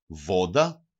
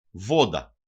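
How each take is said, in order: First: Βόντα stressed on Βό, rising at the end; penultimate stress. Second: Βόντα stressed on Βό, falling; penultimate stress. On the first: Teacher repeating the example for learners, first-syllable stress, rising. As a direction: stress the start of Βόντα, lift the ending. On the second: Teacher showing two-syllable words to learners, first-syllable stress, falling. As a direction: hit the first syllable of Βόντα, then drop. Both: Shown as a demonstration. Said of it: "τονίζεται πάντοτε η παραλίγουσα".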